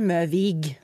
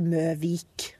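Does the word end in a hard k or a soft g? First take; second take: soft g; hard k. First: The word ends with a soft g sound. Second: The word ends with a hard k sound. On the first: This is how everyone actually says the name. The speaker calls it right. "Alle sier Møvik" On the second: This is how the name is written on the sign. The speaker calls it wrong. "det står for eksempel Møvik. Det heter ikke det"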